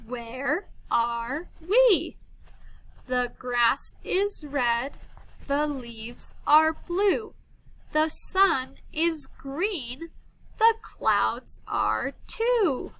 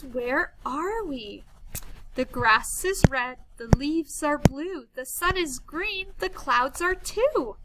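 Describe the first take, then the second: First: Very slow, word-by-word read-aloud; drawn-out words with gaps between them; slow poem reading. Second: Put-on lilting read-aloud of a children's poem; measured teacher's poem voice. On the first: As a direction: read it at half speed for young children to follow. Teacher rereads poem for children. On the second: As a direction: read the rhyme to small children, line by line. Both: Shown as a demonstration.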